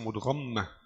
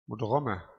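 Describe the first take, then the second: First: The word is said with a doubled consonant. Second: The word is said with no doubled consonant. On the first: The speaker calls it wrong. "ليس" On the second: The speaker calls it right. "كل الكلمة مخففة tidak ada تشديد"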